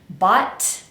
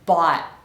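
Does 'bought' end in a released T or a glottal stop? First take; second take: released T; glottal stop. First: The word ends with a released T. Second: The word ends with a glottal stop. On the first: The speaker calls it wrong. "I'm not going to pronounce t" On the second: The speaker calls it right. "I'm gonna use a glottal stop and say bought"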